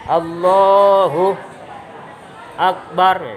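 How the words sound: There is a pause between Allahu and Akbar. The speaker calls it wrong. "Nggak boleh berhenti juga. Allahu Akbar, nggak boleh"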